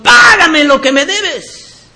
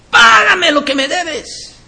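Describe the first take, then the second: First: High, drawn-out demand for payment; harsh creditor's demand. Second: Much higher, mock demand for payment; mimicked creditor's demand. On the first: Acted. Choking servant demands his money from a fellow servant, forceful demand. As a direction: demand it forcefully, stretching the first word. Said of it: "ahogaba diciendo". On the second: Preacher mimics a brother who won't forgive, high mock demand. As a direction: mimic an unforgiving brother, pitched way up. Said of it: "eso es lo que tú estás diciendo".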